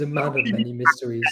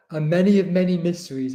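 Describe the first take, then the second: First: Said in the usual way. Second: "A many of many mysteries" with "many" said where "man" belongs; "A many of many mysteries", the muddled version of the phrase; mum's misquote. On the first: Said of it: "she means a man of many mysteries". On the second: Retold or imitated. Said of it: "Mum has just said".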